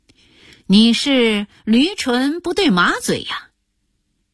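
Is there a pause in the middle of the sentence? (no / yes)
no. The sentence is said in one breath. The answer does not match the question. The speaker calls it right.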